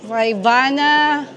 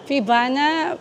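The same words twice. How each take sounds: First: FAIBANA drawn out slowly, louder, first syllable like "fye"; Faibana with fai. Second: FIBANA said with a short "fee" start, rising as a question. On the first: Vlogger offering Kuya the other pronunciation, slow Faibana with "fye". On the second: Vlogger asking Kuya how to pronounce it, Fibana with "fee". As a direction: offer "Fibana", first syllable like "fee". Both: Shown as a demonstration. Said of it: "Paano i-pronounce yan?".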